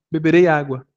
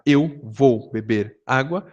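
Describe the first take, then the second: First: Said in the usual way. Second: Eu vou beber água drawn out slowly; slow wordy version. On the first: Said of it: "eu posso falar". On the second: Shown as a demonstration. Teacher contrasting the wordy Brazilian phrasing, slowly. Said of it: "Em vez de eu falar".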